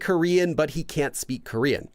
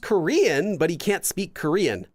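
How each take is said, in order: First: The first 'Korean' is said with a plain tune. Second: The first 'Korean' goes up, down, then up. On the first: He is simply Korean but cannot speak it. "the literal translation" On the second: He is Korean, admitted only half-heartedly. "we have Korean, it goes up and then down and then back up again"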